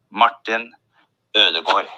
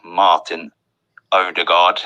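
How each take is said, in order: First: "Martin Ødegaard" with rounded Ø and O-like ending; careful Norwegian "Martin Ødegaard", pitched up; Norwegian pronunciation. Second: "Martin Ødegaard" anglicised as OH-de-gard; plain English reading of "Martin Ødegaard"; English pronunciation. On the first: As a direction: say "Ødegaard" as UR-de-gor, Norwegian style. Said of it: "pedantic or interested in languages". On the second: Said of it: "say his name in English". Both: Shown as a demonstration.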